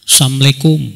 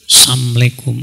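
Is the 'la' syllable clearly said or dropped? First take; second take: dropped; dropped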